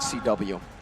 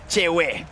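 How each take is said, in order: First: The name is spelled out as two letters. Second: The name is said as one two-syllable word. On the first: The speaker calls it wrong. "It's not C W" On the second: The speaker calls it right. "you gotta say it right"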